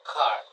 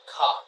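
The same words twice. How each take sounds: First: "car" with a clear R at the end; rhotic pronunciation. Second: "car" with no R, ending on an open ah, slow; non-rhotic pronunciation. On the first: Teacher shows the rhotic way, "car" with the R sounded. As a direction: say "car" sounding the final R, American style. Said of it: "for erotic car". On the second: Teacher shows the non-rhotic way, slow "car" with no R. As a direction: drop the R in "car", British style, stretched out. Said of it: "for non-erotic, non-erotic accent, we would say car". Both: Shown as a demonstration.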